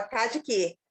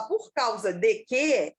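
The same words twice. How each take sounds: First: Cá de quê, said as the clipped form of por causa de quê; clipped, run-together cá de quê. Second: Por causa de quê, said slowly as the correct phrase; slow, careful por causa de quê; correct form. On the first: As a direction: give the slurred cá de quê. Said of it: "eu falava". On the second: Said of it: "em vez de eu falar". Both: Shown as a demonstration.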